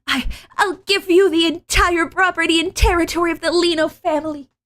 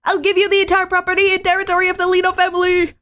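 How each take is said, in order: First: Anime voice. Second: Put-on very high, fast desperate anime girl. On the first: Acted. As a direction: lean harder into the anime heroine. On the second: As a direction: blurt it out in a high rush. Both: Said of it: "anime enough".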